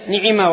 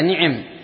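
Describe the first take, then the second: First: Both vowels are i sounds. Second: The first vowel is a, the second is i. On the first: "بكسرتين" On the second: "وكنانة تكسرها"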